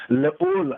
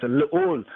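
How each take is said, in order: First: Le'ul sung out much higher than spoken; high intoned. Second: Said in the usual way. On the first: Shown as a demonstration. Teacher chanting le'ul for the class, high and sung.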